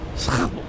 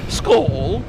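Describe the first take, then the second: First: It is said with a Dutch accent. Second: It is said with a Scandinavian accent. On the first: "But but in in the Netherlands, it's school" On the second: "If you were in Scandinavia, it would be called school"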